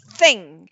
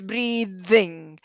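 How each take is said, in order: First: The th sound is voiceless. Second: The th sound is voiced. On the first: The speaker calls it wrong. "You don't say" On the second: The speaker calls it right. "make it voiced"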